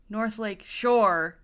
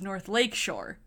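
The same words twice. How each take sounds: First: The strongest stress falls on the word shore. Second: The strongest stress falls on the word lake. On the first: This is how someone else says it. The speaker calls it wrong. "he puts the emphasis on shore" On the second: This is how locals say it. The speaker calls it right. "You always put the emphasis on lake"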